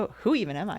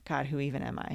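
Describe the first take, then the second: First: It sounds excited and curious. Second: It sounds frustrated and despairing.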